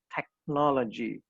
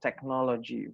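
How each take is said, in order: First: It is said with an English pronunciation. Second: It is said with an Indonesian pronunciation. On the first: This is how English speakers say it. "kalau orang Inggris bilangnya technology" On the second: This is how we say it here. "kita bilangnya teknologi"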